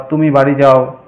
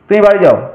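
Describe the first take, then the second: First: It is said calmly, as a plain description. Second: It is said forcefully, as an order.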